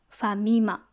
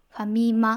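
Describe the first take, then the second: First: The pitch is high on the middle syllable mi. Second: The pitch is high on the final syllable ma. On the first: This is the Kansai dialect pronunciation. "関西弁だとファミマ、ミがやっぱり高くなる" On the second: This is the standard Japanese pronunciation. "標準語だとファミマっていう風に「マ」が高くなる"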